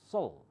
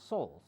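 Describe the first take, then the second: No difference in how they are said.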